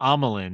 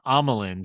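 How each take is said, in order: First: The name sounds like Amilyn. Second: The name sounds like Amilyn.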